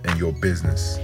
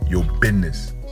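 First: It is said in a plain, ordinary voice. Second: It is said in a dramatic movie-style voice.

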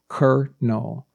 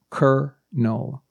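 First: The word sounds exactly like kernel. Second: The word sounds exactly like kernel.

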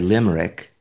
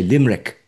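First: The word is said with three syllables. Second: The word is said with two syllables. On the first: The speaker calls it wrong. "we don't say limerick" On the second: The speaker calls it right. "We say limerick. You take the R out"

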